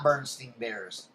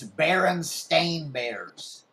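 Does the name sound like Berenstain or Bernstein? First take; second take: Bernstein; Berenstain. First: The name is said as Bernstein. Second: The name is said as Berenstain. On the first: The speaker calls it wrong. "it's not Bernstein Bears" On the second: The speaker calls it right. "It's Berenstain Bears"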